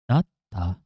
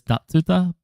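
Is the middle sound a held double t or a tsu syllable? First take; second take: double t; tsu syllable. First: A held double t replaces the middle syllable. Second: A full tsu syllable is said in the middle. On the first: The speaker calls it right. "We probably say datsa, datta" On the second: The speaker calls it wrong. "I read this as datsuta, but something tells me we don't actually say datsuta"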